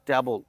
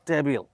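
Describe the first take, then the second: First: The first vowel sounds like 'cat'. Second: The first vowel sounds like 'bed'. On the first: "আমরা বলে থাকি" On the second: "আমরা বলে থাকি"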